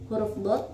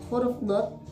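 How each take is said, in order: Both takes have the same delivery.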